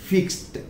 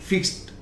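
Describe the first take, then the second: Both takes have the same delivery.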